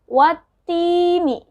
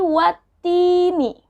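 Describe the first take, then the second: First: The L merges into a doubled t sound. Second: The L merges into a doubled t sound.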